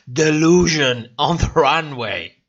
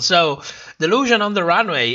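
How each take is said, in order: First: Delusion on the runway, each word leaned on with weight; with emphasis. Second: Said in the usual way. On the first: Shown as a demonstration. Streamer repeats a viewer's catchphrase, with heavy emphasis. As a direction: press hard on delusion on the runway. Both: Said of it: "With emphasis".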